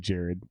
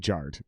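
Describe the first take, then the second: First: It is said like the common name Jared. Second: It is said like the word jarred. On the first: The speaker calls it wrong. "don't say Jared" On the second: The speaker calls it right. "Say jarred"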